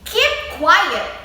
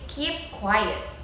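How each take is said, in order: First: It is said forcefully, with strong emotion. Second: It is said calmly, without strong emotion.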